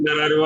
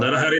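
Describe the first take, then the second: First: The middle 'h' syllable is dropped and merged. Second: The middle 'h' syllable is fully pronounced. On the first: The speaker calls it wrong. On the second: The speaker calls it right.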